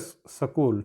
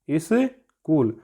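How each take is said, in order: First: The word begins directly with the 'sk' cluster. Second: An extra 'i' vowel comes before the 'sk'. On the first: The speaker calls it right. "ये सही होता है" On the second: The speaker calls it wrong. "इसको इस प्रकार बोल देते हैं"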